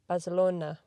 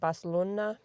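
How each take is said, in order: First: It is pronounced the usual English way. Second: It is pronounced in a non-English way. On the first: The speaker calls it right. "How do I say it in English?" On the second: The speaker calls it wrong. "Why did I say it like that?"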